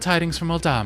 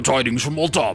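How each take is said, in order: First: It is said in a lighter, higher voice. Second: It is said in a very deep, gruff voice. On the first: "I'm gonna go with her actual voice" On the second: "like the deepest, like, gangster British voice ever"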